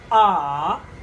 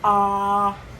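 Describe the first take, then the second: First: The pitch dips down, then comes up. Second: The pitch stays level throughout. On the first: "Go down and come up" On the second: "it's flat"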